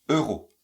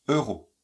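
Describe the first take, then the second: No difference in how they are said.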